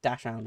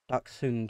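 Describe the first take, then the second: First: The word is said with an English pronunciation. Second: The word is said with a German pronunciation. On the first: "very British way of saying it" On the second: "would be the German pronunciation"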